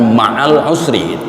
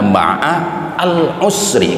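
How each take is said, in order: First: The article is blended into the preceding word. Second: The article 'al' is pronounced distinctly. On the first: The speaker calls it wrong. "Bahasa Indonesia suka memudahkan ma'al usri, salah itu mestinya" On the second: The speaker calls it right. "gitu mestinya. Ada alif lamnya"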